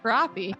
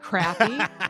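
First: It is said the way Minnesotans say it. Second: It is said the way Minnesotans do not. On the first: The speaker calls it right. "It's pronounced crappie" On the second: The speaker calls it wrong. "no one in Minnesota pronounces it crappie"

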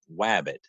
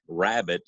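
First: The word begins with a W sound. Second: The word begins with an R sound. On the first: The speaker calls it wrong. "I could not say my R's. ... I would say wabbit" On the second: The speaker calls it right. "instead of saying rabbit"

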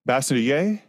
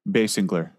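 First: The name is said in its original heritage form. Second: The name is said in its common American form. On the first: This is the family's original way of saying it. "Technically, that's the pronunciation. ... That's my inheritance pronunciation" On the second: This is how most people in the country say it. "But in America, most people just say Basinger"

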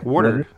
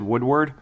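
First: The name has no w sound in the middle. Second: The name has a w sound in the middle. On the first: The speaker calls it right. "Woodard, right?" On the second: The speaker calls it wrong. "I said Woodward"

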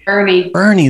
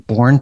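First: The name is said with two syllables, like 'Bernie'. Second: The name is said with one syllable, like 'Bourne'. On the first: The speaker calls it right. "Bernie, that's right" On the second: The speaker calls it wrong. "I just pronounced it wrong"

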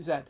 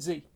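First: It is said the British way, as zed. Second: It is said the American way, as zee.

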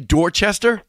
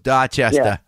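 First: It is said with standard American pronunciation. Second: It is said with a Boston accent.

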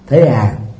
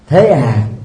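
First: It is said in a calm, unbothered tone. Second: It is said in a questioning, displeased tone. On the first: The news is accepted without concern. "một dấu chấm than, tức là thản nhiên" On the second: The speaker does not accept it and is unhappy. "một dấu hỏi, đó là một nghi vấn từ"

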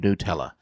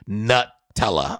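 First: The first syllable sounds like "new". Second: The first syllable sounds like "nut". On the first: The speaker calls it right. "like N-E-W" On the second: The speaker calls it wrong. "as you thought"

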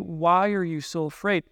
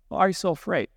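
First: It sounds curious and gentle. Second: It sounds angry and sharp.

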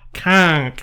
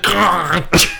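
First: The word is one short syllable ending in k. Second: The word is drawn out into extra syllables. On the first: The speaker calls it right. "K-A-A-N-G-K. Conk" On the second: The speaker calls it wrong. "he gave it extra syllables"

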